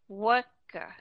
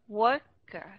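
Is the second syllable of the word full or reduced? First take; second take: reduced; reduced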